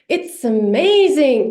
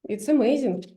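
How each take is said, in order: First: A lively, emotional tune with wide pitch movement. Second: A calm, plain tune falling at the end. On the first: "It's really hard to do this uh, intonation pattern" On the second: "falling down"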